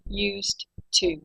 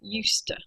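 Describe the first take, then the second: First: Each word is said separately and fully. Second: The words run together in connected speech. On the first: "we write" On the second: "but we say"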